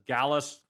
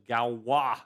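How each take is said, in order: First: The name ends with an s sound. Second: The name ends with a wah sound. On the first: The speaker calls it wrong. "I pronounced this as Gallus field theory" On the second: The speaker calls it right. "It is Galois"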